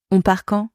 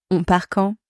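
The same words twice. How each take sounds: The two takes are said the same way.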